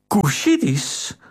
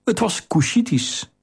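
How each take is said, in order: First: "Kushitisch?" drawn out slowly on a gasp, higher; gasp, then the word in disbelief; gasping shock. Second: Said in the usual way. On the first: Acted. Theo realising the assassin's origin, gasping in shock.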